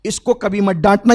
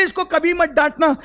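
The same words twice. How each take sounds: First: Loud warning ending on a rise at डांटना; the Prophet warning Umar, loud; loud firm warning. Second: Much higher, with the weight on मत; the Prophet repeating his warning, higher and stronger; high emphatic warning. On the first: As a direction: stress कभी and let डांटना rise. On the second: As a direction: push मत high and hard. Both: Acted. Prophet warns Umar, repeated line.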